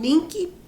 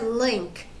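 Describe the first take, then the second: First: The word is said with a Portuguese accent. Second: The word is said with an English accent. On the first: "Eu tô falando link para fazer uma pronúncia em português" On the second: "mas em inglês é link"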